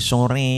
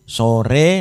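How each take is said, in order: First: The final vowel is pulled close to i. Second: The final vowel is a plain e sound. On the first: "sore menjadi sore, agak didekatkan" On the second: "Kalau seperti bacaan biasa, bahasa Indonesia sore"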